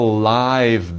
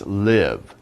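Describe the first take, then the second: First: The vowel is a long 'eye' sound. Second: The vowel is a short 'ih' sound. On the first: Someone is there in person, not recorded. "It's a live band. That means the band is there in person" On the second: Someone continues to be alive. "But if you say it as a verb, it's live"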